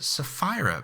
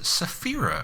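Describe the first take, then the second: First: The name starts like the word sapphire. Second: The name does not sound like sapphire. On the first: "I pronounced it Sapphira because she's blue" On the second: "I didn't pronounce it Saphira"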